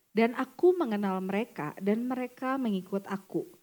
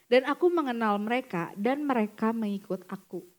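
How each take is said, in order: No difference in how they are said.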